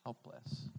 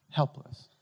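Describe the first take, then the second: First: Low, soft Helpless. said almost under the breath; hushed helpless. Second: Helpless. said out loud and strong; louder Helpless; firm helpless. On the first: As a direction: let Helpless. drop to a murmur. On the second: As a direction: punch Helpless. to the room. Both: Shown as a demonstration. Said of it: "utterly what?".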